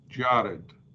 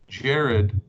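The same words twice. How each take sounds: First: The stressed first vowel is long. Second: The stressed first vowel is short. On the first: The word is at a pause in the verse. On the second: The word is not at a pause in the verse.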